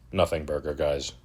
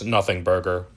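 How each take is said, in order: First: "Nothing burger" dropped much softer; a soft, deflated "Nothing burger"; quiet dismissive. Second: Said in the usual way. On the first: Real, not acted. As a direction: mutter "Nothing burger" under the breath, quieter. Repeated dismissal.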